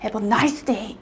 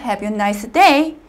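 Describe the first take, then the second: First: The word nice gets strong stress. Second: The word nice gets weak stress. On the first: The speaker calls it wrong. "형용사를 너무 좋아하셔서요" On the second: The speaker calls it right. "이런 식으로 발음하시는 게 훨씬 더 자연스럽다"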